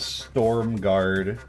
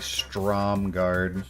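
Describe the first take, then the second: First: The first syllable is said as storm. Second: The first syllable is said as strom. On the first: The speaker calls it wrong. "I pronounced this as Storm Guard for about fifteen years" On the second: The speaker calls it right. "it's actually Strom Guard"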